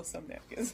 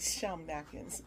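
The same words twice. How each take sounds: First: Said in the usual way. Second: "some" said as "shum"; slow, silly "shum" for "some"; silly pronunciation. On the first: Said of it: "No, some napkins". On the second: Shown as a demonstration. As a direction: slur the s of "some" into a playful sh. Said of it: "Let me stop being silly".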